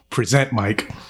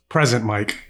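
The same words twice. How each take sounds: First: The stress is on the second syllable of present. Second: The stress is on the first syllable of present. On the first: He presents, like a presenter. The speaker calls it wrong. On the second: He is present. The speaker calls it right.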